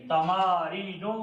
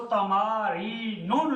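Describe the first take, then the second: First: "तमारीनो" drawn out, ending in an open -u; no tanween. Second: "तमारीनुन" with an added final -un; wrong ending. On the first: Teacher correcting students, "तमारीनो" without tanween. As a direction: end "तमारीनो" on the vowel, no final n. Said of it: "इस पे तनवीन नहीं पढ़ी जाएगी". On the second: Teacher warning students off tanween, "तमारीनुन" ending in nun. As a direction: sound the extra n at the end of "तमारीनुन". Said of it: "इसको तमारीनुन नहीं पढ़ना". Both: Shown as a demonstration.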